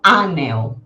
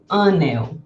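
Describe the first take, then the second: First: The first vowel is open and oral. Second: The first vowel is closer and nasal. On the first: The speaker calls it wrong. "eu não digo anel" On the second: The speaker calls it right. "Eu digo anel"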